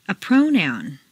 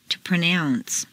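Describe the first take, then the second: First: PROnoun, stressed on the first syllable. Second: ProNOUNCE, stressed on the second syllable. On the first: Teacher models noun "pronoun", first-syllable stress. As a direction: hit PRO in "pronoun". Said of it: "first syllable for nouns". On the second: Teacher models verb "pronounce", second-syllable stress. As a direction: hit NOUNCE in "pronounce". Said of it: "to the second syllable". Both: Shown as a demonstration.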